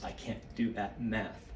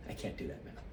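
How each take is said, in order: First: Said in the usual way. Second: \"I can't do that math\" whispered to himself, lower and much softer; a whispered repeat under the breath; whispered aside. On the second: Real, not acted.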